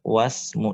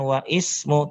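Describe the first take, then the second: First: The i vowel drops and the words merge. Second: The i vowel of ismu is pronounced separately. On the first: The speaker calls it right. "tapi wasmu" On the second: The speaker calls it wrong. "bukan wa ismu"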